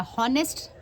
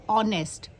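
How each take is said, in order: First: "हॉनेस्ट" with a breathed h at the start; sounded h, wrong. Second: "ऑनेस्ट" starting on an open o; silent h. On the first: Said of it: "एच का ह नहीं आ रहा". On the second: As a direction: say "ऑनेस्ट" with no h sound. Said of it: "इसमें एच जो है silent है". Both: Shown as a demonstration.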